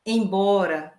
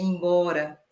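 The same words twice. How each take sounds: First: Said in the usual way. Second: Embora said with an i sound at the start, ibora; first vowel of embora raised to i, like ibora; regional pronunciation. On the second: Shown as a demonstration. Teacher demonstrating the northeastern embora with i as ibora. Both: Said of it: "a pronúncia é embora".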